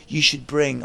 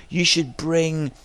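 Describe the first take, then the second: First: Put-on a light London accent; hint of a London accent; London accent impression. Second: Said in the usual way. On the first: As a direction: lightly imitate a London lad. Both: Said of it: "I won't do his accent anymore".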